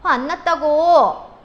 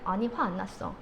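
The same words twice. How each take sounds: First: Loud, drawn-out, high insistence; irritated outburst. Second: Low, soft, displeased denial; sulky denial. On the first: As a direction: snap that you're not angry, clearly angry. Girlfriend snaps when pressed. (화 안 났다며 버럭 짜증) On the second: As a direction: deny being angry while sounding put out. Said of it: "목소리가 별론데?". (화났으면서 낮게 아닌 척) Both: Acted.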